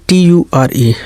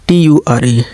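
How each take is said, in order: The two takes are said the same way.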